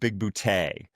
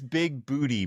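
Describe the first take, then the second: First: The name ends with an 'ay' sound. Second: The name ends with an 'ee' sound. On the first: The speaker calls it right. "but it's pronounced big bootay" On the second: The speaker calls it wrong. "he says big booty"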